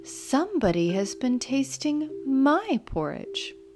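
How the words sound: It is said in a middle-sized bear voice.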